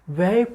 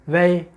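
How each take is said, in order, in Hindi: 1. स्वर एक सपाट 'ai' ध्वनि है। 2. स्वर एक सपाट 'ai' ध्वनि है।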